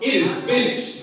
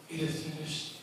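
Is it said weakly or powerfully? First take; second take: powerfully; weakly. First: It is said with strong force. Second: It is said weakly, without force.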